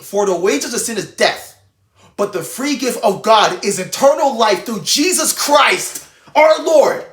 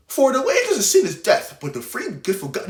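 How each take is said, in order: First: Mean every word, build to the end; reading like you mean it. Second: Careless reading. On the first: Preacher showing viewers how to read scripture, earnest and building. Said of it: "you have to read it like you mean it". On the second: Preacher mocking a careless Bible reading, flat and throwaway. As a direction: rattle off the verse like it means nothing. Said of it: "You can't just say". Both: Shown as a demonstration.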